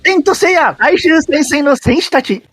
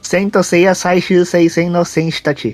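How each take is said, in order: First: It is said with an exaggerated Japanese intonation. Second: It is said in a plain, ordinary voice.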